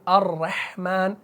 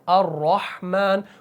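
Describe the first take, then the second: First: The r is pronounced thin and light. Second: The r is pronounced full and heavy. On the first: The speaker calls it wrong. "हम ऐसे नहीं पढ़ सकते" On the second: The speaker calls it right. "बल्कि अर्रहमान, मुंह को आपने भारी करना है"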